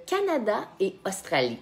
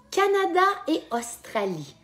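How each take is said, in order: First: Said in the usual way. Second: High-pitched game-host announcement; high, drawn announcement to the players; announcing the choices. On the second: Real, not acted. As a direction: call out the two options, pitched high.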